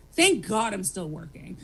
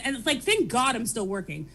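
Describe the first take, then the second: First: "Thank God I'm still working" said lower and slower, deadpan; dry sarcasm. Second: Said in the usual way. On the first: Real, not acted. Overworked mom mocking her own luck, dry and slow. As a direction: let the irony sink in slowly.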